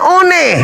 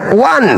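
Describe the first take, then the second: First: It is pronounced as two syllables, 'o-ne'. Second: It is pronounced as one syllable, 'wan'. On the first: This is reading the letters as they are written. The speaker calls it wrong. "Yang benar adalah O N E, itu artinya one" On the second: This is how the word's owners read it. The speaker calls it right. "Bagi pemilik kata membacanya one"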